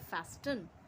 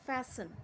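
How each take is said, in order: First: The middle T sound is pronounced. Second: The middle T sound is left out. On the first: "actually ये है फैस्टन" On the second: "टी silent रहता है"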